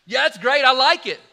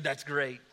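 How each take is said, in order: First: Bursting out louder, delighted; second time, let the delight explode; delighted loud repeat. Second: Said in the usual way. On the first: Retold or imitated. Diner owner delighted by the birthday party plan, loud and excited.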